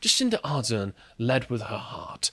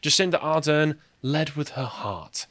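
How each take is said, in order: First: It is said in a soft, soothing voice. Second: It is read in a plain, ordinary voice.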